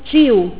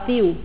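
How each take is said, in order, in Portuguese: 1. É dito com sotaque de Salvador. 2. É dito com sotaque de Recife. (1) "Eu falo tio" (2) "em Recife fala tio"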